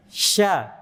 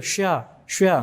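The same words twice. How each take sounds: First: "sya" made with mid-tongue, lips unrounded; open-lipped sh in "sya"; unpouted shin. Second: "Sya, sya" with lips pushed out; rounded, lip-made sh in "Sya, sya"; pouted shin. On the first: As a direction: say "sya" without any pout. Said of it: "Tengah lidah yang main bukan bibir". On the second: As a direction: say "Sya, sya" with pouting lips, the mistaken way. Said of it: "bukan di bibir". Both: Shown as a demonstration.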